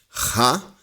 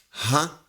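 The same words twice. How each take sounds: First: A raspy, scraping sound from the throat. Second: A soft, weak sound from the throat. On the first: "o som da garganta rasgada" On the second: "o som do da garganta fraca"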